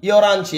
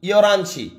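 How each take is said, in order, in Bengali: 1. শব্দ দুটো একসাথে মিশে যায়, আর h বাদ পড়ে। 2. শব্দ দুটো একসাথে মিশে যায়, আর h বাদ পড়ে।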